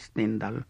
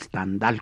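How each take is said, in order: First: The name is said with a Spanish pronunciation. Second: The name is said with a French pronunciation.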